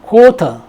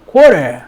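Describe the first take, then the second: First: "quarter" with no R sound; British "quarter", crisp hard T; British pronunciation. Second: "quarter" with R sounded and T turned to r; loud, falling American "quarter"; American pronunciation. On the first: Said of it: "영국에서는 quarter". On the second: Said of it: "미국식". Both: Shown as a demonstration.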